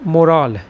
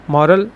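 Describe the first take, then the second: First: मोरल with a light "मो" and the stress on "रल", falling at the end; stress on second syllable. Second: मॉरल with the stress on the first syllable, open "मॉ", rising at the end. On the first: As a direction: lean on the end of मोरल, keeping "मो" short. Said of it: "इसको बोलते हैं second place पे". (मोरल में दूसरे अक्षर पर ज़ोर) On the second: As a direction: hit "मॉ" in मॉरल firmly, then let "रल" fall away lightly. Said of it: "ये फर्स्ट प्लेस पे यूज़ होता है". (मॉरल में पहले अक्षर पर ज़ोर) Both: Shown as a demonstration.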